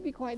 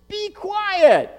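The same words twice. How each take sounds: First: It is said quietly and softly. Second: It is said loudly, like a yell.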